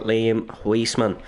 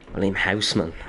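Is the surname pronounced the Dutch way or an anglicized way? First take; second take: anglicized; Dutch. First: The surname is given an anglicized pronunciation. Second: The surname is given its Dutch pronunciation. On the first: The speaker calls it wrong. "I've said the wrong thing for the entire season" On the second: The speaker calls it right. "seemingly the correct Dutch pronunciation"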